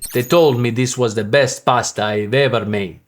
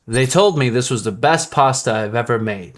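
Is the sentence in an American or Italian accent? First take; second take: Italian; American. First: It is said in an Italian accent. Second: It is said in an American accent.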